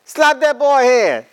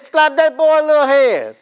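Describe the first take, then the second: First: High, slow, loud mock old lady command; mother-in-law's order. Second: Put-on high, loud bossy old lady voice; mother-in-law's order. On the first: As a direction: drag it out like a bossy grandmother. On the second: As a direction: snap it out like a meddling mother-in-law. Mother-in-law voiced in story.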